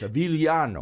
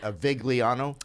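First: The name has the Italian soft 'gli' sound. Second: The name is read out the plain English way. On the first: The speaker calls it right. "You said it wrong. It's Avigliano" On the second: The speaker calls it wrong. "I say it phonetically"

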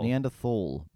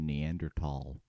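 First: The word is given its British pronunciation. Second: The word is given its American pronunciation. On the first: "because we don't say aluminum" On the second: "the Americans say Neanderthal"

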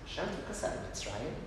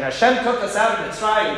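First: It ends with an open, questioning rise. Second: It ends with a firm, emphatic fall. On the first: There is more to think about. "See how the intonation changes?" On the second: The matter is settled and closed. "make sure that I put an exclamation point"

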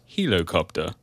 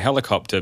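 First: Helicopter is pronounced in an odd, unusual way. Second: Helicopter is pronounced the ordinary, usual way. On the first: "Commissioner Gordon's pronunciation is helicopter" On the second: "there's a pivotal plot involving a helicopter"

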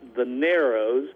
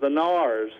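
First: The name is said fully, as in its spelling. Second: The name is shortened to a single syllable. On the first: This is the name as it is written. "It's called or spelled the Narrows" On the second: This is how local people say the name. "the local pronunciation is the Nars, more like N-A-R-S"

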